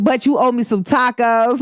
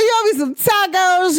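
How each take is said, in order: First: Said in the usual way. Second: Much higher, teasing demand for tacos; playful demand. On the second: Retold or imitated. Teasing her friend about owed tacos, playfully high. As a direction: ham up the claim with a laugh in it. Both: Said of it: "I was like".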